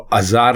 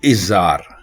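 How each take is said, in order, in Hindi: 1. शब्द 'a' स्वर से शुरू होता है। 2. शब्द 'i' स्वर से शुरू होता है। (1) "अज़ार नहीं" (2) "दुरुस्त लफ्ज है इज़ार"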